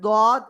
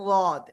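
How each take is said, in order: First: The letter name begins with a D sound. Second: The letter name begins with an L sound. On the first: "অনেকে বলে দদ" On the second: "আবার অনেকে বলে লদ"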